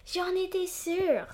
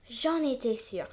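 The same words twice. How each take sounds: First: High, slow sung line; sung joyfully. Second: Sung. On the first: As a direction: sing it out with joy. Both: Acted. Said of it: "chante le petit sapin, tout joyeux".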